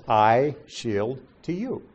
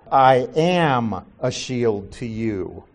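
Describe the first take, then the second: First: Slow, separate words with a gap after "shield"; spaced-out word-for-word reading; literal wording. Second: Slow, with AM stretched and stressed; "am" drawn out as the inserted word. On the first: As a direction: set "I", "shield", "to you" apart. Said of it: "That's not what it says". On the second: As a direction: lean hard on the added word "am". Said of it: "So they've inserted". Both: Shown as a demonstration.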